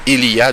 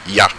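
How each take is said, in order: First: All three syllables are said in full. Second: It is squeezed into one short syllable.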